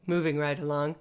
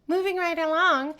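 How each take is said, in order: First: Said in the usual way. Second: Much higher, lilting moving right along; sing-song. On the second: Shown as a demonstration. Teacher moving to the next point in a sing-song. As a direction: toss it off in a bright singsong. Repeated phrase, sung higher.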